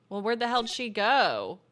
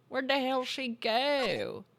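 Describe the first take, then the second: First: Said in the usual way. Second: Slow, hammed-up drawl; mock drawling accent. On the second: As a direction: stretch it out in a silly mock accent. Repeats own line in silly voice.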